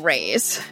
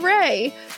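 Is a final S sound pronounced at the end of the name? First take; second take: yes; no. First: The name ends with an audible S sound. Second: The name ends without an S sound. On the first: The speaker calls it wrong. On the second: The speaker calls it right.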